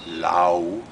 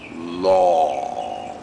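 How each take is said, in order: First: The vowel glides like 'ow'. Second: The vowel is an open 'aw'. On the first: The speaker calls it wrong. "It's not "lao,"" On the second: The speaker calls it right. "No, law"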